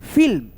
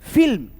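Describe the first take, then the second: The two takes are said the same way.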